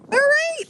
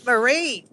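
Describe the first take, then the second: First: High, bright calling of the name; sing-song call. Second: Said in the usual way. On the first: Real, not acted. Host calls out to Marie in chat, high sing-song call. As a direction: call her name up high like across a yard.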